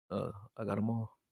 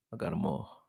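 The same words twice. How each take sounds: First: Said in the usual way. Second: Soft unvoiced "I got 'em all"; whispered. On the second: Real, not acted. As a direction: breathe the line to yourself. Repeats phrase, then whispers it.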